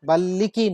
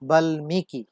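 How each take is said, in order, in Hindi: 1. m की जगह दोहरा l बोला जाता है। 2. m की ध्वनि स्पष्ट रूप से बोली जाती है। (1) "বাল্লিকি নয়" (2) "ম কিন্তু লয়ের সাথে বসার কারণে সে বাল্মীকি হিসেবে উচ্চারিত হচ্ছে"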